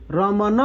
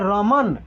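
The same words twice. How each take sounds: First: रमन said as "रमना" with an added final a; रमन pronounced "रमना", extra a sound at the end; wrong pronunciation. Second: रमन said "रमन" with no final vowel; रमन with a silent final a, "रमन"; correct pronunciation. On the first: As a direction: add a wrong closing vowel to रमन. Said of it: "रमन नहीं बोल रहे हैं". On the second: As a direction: end रमन cleanly on the n. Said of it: "हम लोग बोल रहे हैं रमन". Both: Shown as a demonstration.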